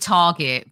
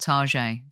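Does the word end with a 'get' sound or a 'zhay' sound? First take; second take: get; zhay. First: The word ends in a hard 'get' sound. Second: The word ends in a soft 'zhay' sound. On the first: It is the store's actual, ordinary name. "it is actually Target" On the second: It is a playful, fancy way to name the store. "there's a thing where you call it Tarjay"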